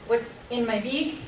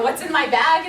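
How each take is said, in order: First: The vowel in bag sounds close to e. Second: The vowel in bag sounds like a plain a.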